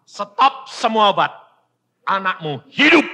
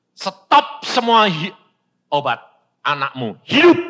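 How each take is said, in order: First: Louder and higher, firm command; commanding voice of God. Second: Commanding voice of God. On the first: God commands the father, loud firm decree. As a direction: repeat the divine order. God's word repeated. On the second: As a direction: deliver it as a divine order. God's word quoted. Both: Retold or imitated.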